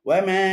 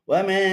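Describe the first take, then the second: Both takes have the same delivery.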